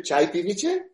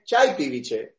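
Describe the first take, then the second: First: "Chai piviche?" with the tune rising on piviche; asked as a question. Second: "Chai piviche" with the tune falling on chai; said as a statement. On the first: Guest teaching the host Gujarati, asking "Chai piviche?" with a rising question tune. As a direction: lift the end of "piviche" like a question. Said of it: "It's just the tone, whether you ask it as a question". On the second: Guest teaching the host Gujarati, stating "Chai piviche" with a falling tune. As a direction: let "piviche" drop flat like a statement. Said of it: "or you say it as a statement".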